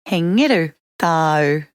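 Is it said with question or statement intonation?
statement. It is said with plain statement intonation. The listener has a cat. "You have a cat"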